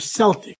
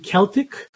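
First: The word begins with an S sound. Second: The word begins with a K sound. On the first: "pronounced with a S sound" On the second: "pronounced with a K sound"

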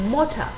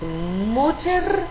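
First: The word ends with an open vowel. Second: The word ends with an audible r sound. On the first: The speaker calls it right. "sino MOCHA" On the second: The speaker calls it wrong. "no decimos MOCHER"

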